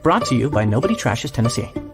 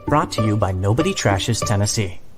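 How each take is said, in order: First: The ending is said quickly and rushed. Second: The ending is said at an unhurried pace.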